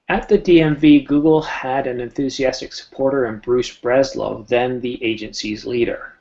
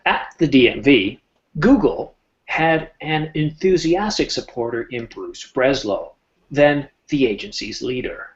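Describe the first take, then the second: First: It is read plainly with little emphasis or pausing. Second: It is read with added emphasis and deliberate pauses.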